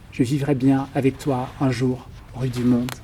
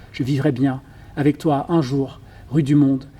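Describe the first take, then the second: Both takes have the same delivery.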